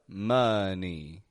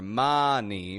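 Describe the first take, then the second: First: The first vowel is an uh sound. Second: The first vowel is not an uh sound. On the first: The speaker calls it right. "Getting an uh sound in that O" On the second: The speaker calls it wrong. "It's not money"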